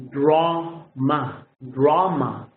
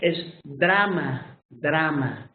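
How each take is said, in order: First: Drama with a rounded aw vowel; English drama. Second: Drama with a Spanish ah, slow. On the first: Teacher models the English vowel in drama. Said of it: "But in English". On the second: Teacher shows the Spanish pronunciation of drama. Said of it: "in Spanish". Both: Shown as a demonstration.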